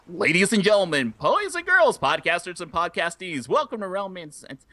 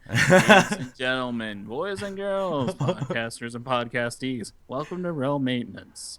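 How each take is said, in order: First: It is spoken with lively, varied energy. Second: It is spoken in a flat, robotic monotone. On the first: The speaker has gained confidence. The speaker calls it right. "nowadays you hear on like episode uh two hundred nine" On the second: The speaker lacked confidence. The speaker calls it wrong. "The robotic monotone"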